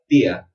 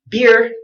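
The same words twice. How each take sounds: First: It is said with a British accent. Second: It is said with an American accent.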